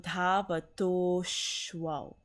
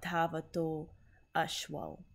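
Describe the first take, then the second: First: The words are run together with the vowel dropped. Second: The words are said apart with both vowels kept. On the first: The speaker calls it right. "So dhavadoshwal" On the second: The speaker calls it wrong. "not dhavato ashwal"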